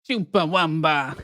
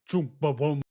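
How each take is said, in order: First: It is said in a higher voice. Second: It is said in a deep voice.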